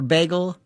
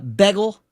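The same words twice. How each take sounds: First: It is said with a standard accent. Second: It is said with a Philadelphia accent.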